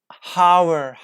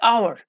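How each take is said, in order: First: The word begins with an audible H sound. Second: The word begins with a vowel, no H sound. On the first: The speaker calls it wrong. "like they say, hower, hower, h. They pronounce like H like h" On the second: The speaker calls it right. "Don't pronounce. Like hour"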